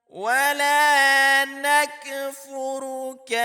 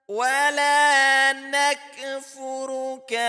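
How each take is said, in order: The two takes are said the same way.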